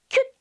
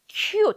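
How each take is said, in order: First: The vowel is clipped and short. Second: The vowel is drawn out and long. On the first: The speaker calls it wrong. "짧게 cute 아니고요" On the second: The speaker calls it right. "약간 길게 발음하게 돼요"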